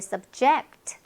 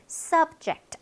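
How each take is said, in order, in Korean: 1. 강세는 두 번째 음절에 있어요. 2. 강세는 첫 번째 음절에 있어요.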